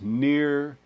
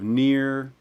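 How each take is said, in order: First: The vowel is not raised toward 'ee'. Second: The vowel is raised toward 'ee'. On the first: The speech sounds more elevated and formal. "avoid that and go towards near" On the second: The speech sounds casual and everyday. "instead of near"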